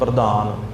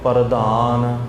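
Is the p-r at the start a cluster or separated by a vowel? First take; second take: cluster; separate. First: The p and the r run together quickly. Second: A vowel separates the p and the r. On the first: The word would be written with a subscript r. "ਜੇਕਰ ਪੈਰ ਵਿੱਚ ਰਾਰਾ ਹੁੰਦਾ ਫਿਰ ਸਭ ਸੰਗਤਾਂ ਨੇ ਤੇਜ਼ ਬੋਲਣਾ ਸੀ ਥੋੜ੍ਹਾ ਜਿਹਾ" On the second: The word is written with a full r letter. "ਪੂਰੇ ਰਾਰਿਆਂ ਦੇ ਨਾਲ ਇਹ ਸ਼ਬਦ ਉਚਾਰਨ ਕੀਤੇ ਹੋਏ ਆ"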